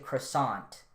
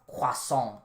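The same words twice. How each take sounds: First: It is said the English way. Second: It is said the French way.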